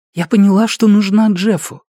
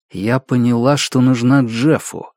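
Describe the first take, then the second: First: Raised pitch, gentle woman's voice; lightly voiced young mother; mother's voice. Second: Said in the usual way. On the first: Mother's voice in story.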